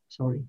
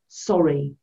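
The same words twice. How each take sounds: First: It is said grudgingly, without meaning it. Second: It is said sincerely, as if meant.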